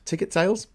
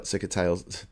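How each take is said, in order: First: Ticket sales said clearly with a puzzled upward tune; questioning re-read. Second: Ticket sales slurred low and quiet, like sickets; mumbled misread. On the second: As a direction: stumble through ticket sales, swallowing the t. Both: Real, not acted. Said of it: "Sales, t-, ticket sales".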